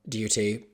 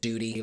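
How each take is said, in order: First: The word is said without an American accent. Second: The word is said with an American accent. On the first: The speaker calls it right. "I'm glad at least that we don't pronounce it duty" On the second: The speaker calls it wrong. "like I know a lot of Americans do"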